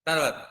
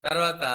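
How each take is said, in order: No difference in how they are said.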